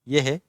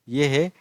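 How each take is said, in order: Both takes have the same delivery.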